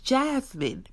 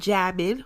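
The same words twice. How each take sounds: First: The name is said with a clear S sound. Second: The name is said without an S sound. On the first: The speaker calls it right. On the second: The speaker calls it wrong.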